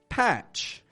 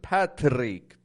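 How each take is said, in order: First: The TR sounds like CH with an unrolled R. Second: The R after the T is rolled. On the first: The speaker calls it right. "we make a C H sound followed by a stressed R" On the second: The speaker calls it wrong. "they will habitually roll their R's when it follows T"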